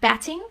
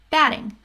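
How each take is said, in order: First: The middle consonant is a crisp T sound. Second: The middle consonant is a quick D-like flap. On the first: The speaker calls it wrong. "it's not batting" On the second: The speaker calls it right. "batting with a D sound"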